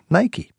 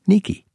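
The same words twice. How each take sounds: First: The name is said the English way. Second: The name is said the Greek way.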